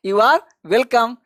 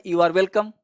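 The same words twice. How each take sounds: First: Very slow, each word drawn out for students; slow demo. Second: Said in the usual way. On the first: Shown as a demonstration. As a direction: spell it out slowly for learners. (धीमे-धीमे, साफ़ बोलकर) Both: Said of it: "ये चारों का जवाब आपको देना है".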